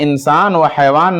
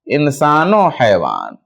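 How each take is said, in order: First: A separate 'va' sits between the two words. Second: An 'o' sound joins onto the first word. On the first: The speaker calls it wrong. "हम यहां इंसान व हैवान नहीं पढ़ेंगे" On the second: The speaker calls it right. "बल्कि क्या पढ़ेंगे"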